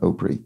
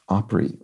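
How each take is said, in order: First: The first vowel differs from the start of 'opera'. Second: The first vowel matches the start of 'opera'. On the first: The speaker calls it wrong. "rather than Opry" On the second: The speaker calls it right. "is derived from opera, so it is pronounced Opry"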